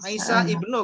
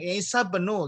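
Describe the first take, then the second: First: The vowel before 'bnu' is pronounced separately. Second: The vowel before 'bnu' is dropped, words linked. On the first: The speaker calls it wrong. "ini nggak dibaca Isa ibnu kan?" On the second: The speaker calls it right. "harus langsung nyambung Isa benu gitu"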